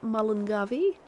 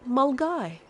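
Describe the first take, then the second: First: The name is sounded out in four syllables. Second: The name is said in two short syllables. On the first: The speaker calls it wrong. "Not Mullingavi" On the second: The speaker calls it right. "is pronounced Mulgai"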